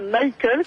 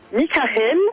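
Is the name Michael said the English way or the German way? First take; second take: English; German. First: The name is said the English way. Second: The name is said the German way. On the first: The speaker calls it wrong. "qui ne se prononce pas Michael, comme je l'ai cru" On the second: The speaker calls it right. "mais bien Michael"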